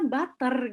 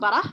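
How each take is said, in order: First: It is said with an American accent. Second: It is said with an Australian accent.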